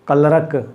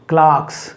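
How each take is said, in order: First: The vowel sounds like the one in 'her'. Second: The vowel sounds like the one in 'car'. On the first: The speaker calls it wrong. "क्लर्क नहीं बोलना है" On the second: The speaker calls it right.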